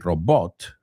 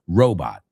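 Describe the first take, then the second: First: The stress is on the second syllable. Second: The stress is on the first syllable. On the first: The speaker calls it wrong. "we don't say robot" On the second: The speaker calls it right. "el acento va al principio"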